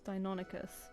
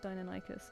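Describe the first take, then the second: First: The stress is on the syllable non. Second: The stress is on the syllable die. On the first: "some places I put an emphasis on the non" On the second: "and some on the die"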